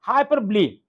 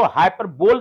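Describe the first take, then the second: First: "हाइपरबोलिक" said as hai-par-blee, no final k; correct pronunciation. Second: "हाइपरबोल" read as hyper-bowl; mistaken pronunciation. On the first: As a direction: end "हाइपरबोलिक" on a long lee, not bowl. ("हाइपरबोलिक" का उच्चारण हाइपरब्ली, अंत में ली) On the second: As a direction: say "हाइपरबोल" with a final bol, like bowl. ("हाइपरबोल" का गलत उच्चारण, अंत में बोल) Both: Shown as a demonstration. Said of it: "इसको हाइपरबोल नहीं पढ़ना".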